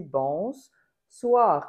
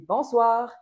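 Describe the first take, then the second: First: «bonsoir» with the S doubled and held long, ss hissed onto bon. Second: «bonsoir» said normally, stress on soir, a bit higher and louder; bonsoir demo. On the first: Teacher showing the doubled S in «bonsoir», S lengthened. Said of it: "comme si je doublais le S". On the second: Teacher showing how «bonsoir» sounds in plain speech, slightly raised. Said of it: "si je dis". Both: Shown as a demonstration.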